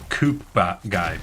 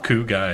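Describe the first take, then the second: First: The first word ends with a clear P sound. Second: The first word ends in an oo sound, no P. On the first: The speaker calls it wrong. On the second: The speaker calls it right.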